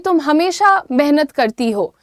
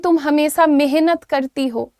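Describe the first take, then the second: First: The words are pronounced carefully and clearly. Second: The words are pronounced carelessly and badly. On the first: The speaker calls it right. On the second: The speaker calls it wrong.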